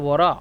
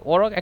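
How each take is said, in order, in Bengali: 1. শব্দটি গ্লটাল স্টপ দিয়ে শেষ হয়। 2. শব্দটি গভীর 'q' ধ্বনি দিয়ে শেষ হয়।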